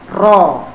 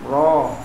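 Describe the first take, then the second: First: The r is trilled strongly with many tongue taps. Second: The r is soft with only a slight trill. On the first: The speaker calls it wrong. "ro kebanyakan takrirnya" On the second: The speaker calls it right. "jadi halus dia"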